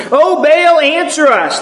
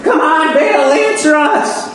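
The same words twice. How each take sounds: First: Frantic prophets crying to their god; crying out to Baal. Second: High pleading call, slowing on answer us; frantic Baal prophets. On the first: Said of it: "they cried". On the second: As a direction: beg the idol, half mocking their frenzy. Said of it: "They're jumping up and down, and they're like". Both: Acted.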